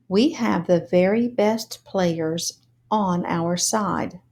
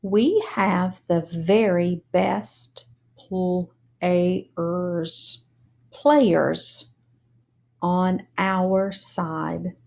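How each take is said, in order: First: "We have the very best players on our side" read smoothly; fluent reading. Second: "We have the very best players" read word by word, slow; slow choral reading. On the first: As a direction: read the whole line smoothly. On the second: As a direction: read it slowly, one word at a time. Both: Shown as a demonstration. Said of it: "Now let's read together".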